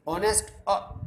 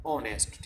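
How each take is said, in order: First: ऑनेस्ट said higher and louder, opening vowel stressed; teacher stressing ऑनेस्ट with open vowel; stressed demo. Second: Said in the usual way. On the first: Shown as a demonstration. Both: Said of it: "जो sound निकल रही है".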